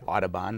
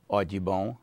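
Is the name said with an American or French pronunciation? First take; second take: American; French. First: The name has an American English pronunciation. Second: The name has a French pronunciation. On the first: This is how Americans say the name today. "not Audubon the way we say it" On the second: This is how the man himself said his name. "with a heavy French accent and would have pronounced his name Audubon"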